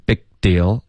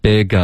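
First: "big deal" with no "uh" between; "big" straight onto "deal"; lost syllable. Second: "Big" followed by a light "uh"; linked "Big-a", extra syllable kept; two-syllable "big a". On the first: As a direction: imitate a learner skipping the a in "big deal". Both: Shown as a demonstration. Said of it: "丢了一个音节".

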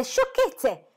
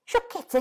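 First: Higher and louder repeat, rising indignation; the second cry outdoes the first; louder exclamation. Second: High-pitched scoffing cry; exclaiming. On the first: Mrs Bennet repeats her dismissal, louder and higher. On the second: Mrs Bennet scoffs at her husband, high exclamation. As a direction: dismiss it with a shrill exclamation. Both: A narrator's reading. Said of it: "si accontentò di esclamare".

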